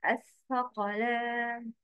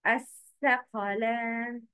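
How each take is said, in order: First: الثقلان with the tongue out for tha; correct pronunciation. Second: الثقلان with a t in place of tha; wrong pronunciation. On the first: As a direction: say الثقلان with a clear th sound. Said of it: "The correct is". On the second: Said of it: "but the wrong is". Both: Shown as a demonstration.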